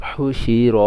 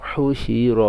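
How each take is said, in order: Both takes have the same delivery.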